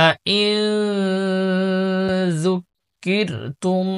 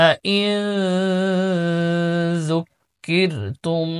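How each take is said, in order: No difference in how they are said.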